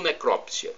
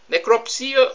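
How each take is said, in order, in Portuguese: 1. A sílaba tônica é crop. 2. A sílaba tônica é si. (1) "Eu já ouvi falar as duas pronúncias" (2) "Eu já ouvi falar as duas pronúncias"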